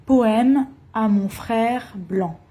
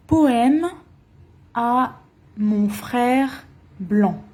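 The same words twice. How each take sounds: First: Said in the usual way. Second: "Poème à mon frère blanc" said slowly, word by word; slow title. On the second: Shown as a demonstration. Teacher slowly announcing "Poème à mon frère blanc" to students. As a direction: spell out the title slowly for learners.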